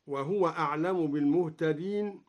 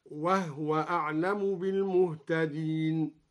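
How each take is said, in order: First: Said in the usual way. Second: وهو said wahwa with no vowel on the ha, slowly recited; silent ha in وهو. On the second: Shown as a demonstration. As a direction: recite وهو with a sukun on the ha, slow and measured. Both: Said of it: "قرأ بإسكان الهاء هكذا".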